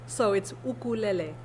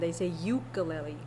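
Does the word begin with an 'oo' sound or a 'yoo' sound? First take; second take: oo; yoo. First: The word begins with a short 'oo' sound. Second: The word begins with a 'yoo' sound. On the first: This is how it is said in Hawaii. "It's in Hawaii, the U's are short" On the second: This is how it is said on the mainland. "here in the mainland, they say"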